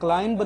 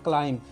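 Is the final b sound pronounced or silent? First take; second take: pronounced; silent. First: The final b sound is pronounced. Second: The final b sound is silent. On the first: The speaker calls it wrong. "आपको क्लाइंब क्लाइंब नहीं बोलना है" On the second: The speaker calls it right. "बल्कि क्या बोलना है"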